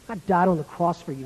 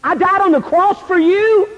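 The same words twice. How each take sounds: First: Low, soft reproach; restrained anger. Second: High, indignant rebuke; pitched up high in disgusted reproach. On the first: Jesus confronting John face to face, quietly angry. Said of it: "I'm so angry with you". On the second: Jesus rebuking a teenager face to face, disgusted. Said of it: "would be the word disgust". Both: Acted.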